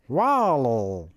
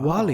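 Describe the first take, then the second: First: It is said in a Wall-E robot voice. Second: It is said in his normal voice.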